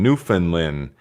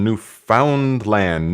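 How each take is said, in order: First: "Newfoundland" squeezed to NEWF-in-lund, middle syllable swallowed; Newfoundland run together. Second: "Newfoundland" with a full "found" and "land", NEW-FOUND-LAND; Newfoundland said as spelled. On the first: Host trying the other way, "Newfoundland" as newfin-lund. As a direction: say "Newfoundland" fast and slurred like a local. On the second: Host greeting a viewer, says "Newfoundland" as new-found-land. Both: Shown as a demonstration. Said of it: "Do you say Newfoundland or Newfoundland?".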